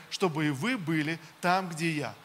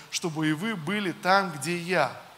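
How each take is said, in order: No difference in how they are said.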